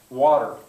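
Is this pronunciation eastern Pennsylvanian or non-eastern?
non-eastern. It is said with the speaker's own non-eastern pronunciation. "that's the way we say it"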